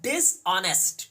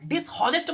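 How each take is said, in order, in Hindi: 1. h की आवाज़ silent है। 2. h की आवाज़ बोली जाती है। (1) "एच साइलेंट है" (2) "आप डिसऑनेस्ट मत बोल दीजिएगा, इट्स अ इनकरेक्ट प्रोनाउंसिएशन"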